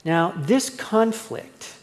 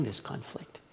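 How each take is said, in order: First: "this" drawn out slowly and leaned on; slow emphatic "this conflict"; slow stress on this. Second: "this conflict" whispered, breathy and soft; whispered aside "this conflict". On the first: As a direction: stretch "this conflict" slowly, weight on "this". Preacher stresses the key phrase. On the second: Repeats the phrase as an aside. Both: Real, not acted.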